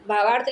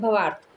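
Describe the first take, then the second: First: भावार्थ with a long first "bhaa"; correct pronunciation. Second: भवार्थ with a short first "bha"; common mistaken form. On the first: Teacher giving the correct word, long-vowel pronunciation of भावार्थ. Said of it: "भावार्थ तो शुद्ध शब्द है". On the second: Teacher showing what students write, short-vowel mispronunciation of भवार्थ. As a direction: say भवार्थ as "bhuh-vaarth". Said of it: "लेकिन क्या लिखते हैं". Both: Shown as a demonstration.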